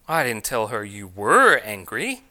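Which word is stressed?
were. The stress falls on the word were. The anger is said to continue now. "I told her you still are angry"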